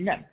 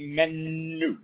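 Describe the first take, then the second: First: The n sound is short and single. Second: The n sound is held long, as if doubled. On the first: "And if it was without, it would be menu" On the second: "if it was a Dagish, it would be menu, as if there were two nun there"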